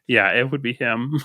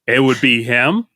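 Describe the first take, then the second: First: It is said in a quiet, meek way. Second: It is said in a pushy, insistent way.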